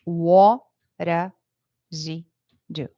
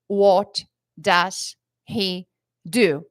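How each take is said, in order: First: What does he do? linked, sounding like wodaz-i-du; connected speech. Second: What does he do? very slow, each word apart; separate words. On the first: Teacher showing students the linked fluent form. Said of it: "vai sair como se fosse assim". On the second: Teacher showing students what fluent speakers avoid. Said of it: "ela não vai falar". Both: Shown as a demonstration.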